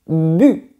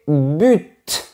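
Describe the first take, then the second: First: The final T sound is silent. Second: The final T sound is pronounced. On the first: This is the more refined, expert way to say it. "on dit bu. C'est plus chic" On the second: This is the most common way to say it. "La prononciation la plus courante est but"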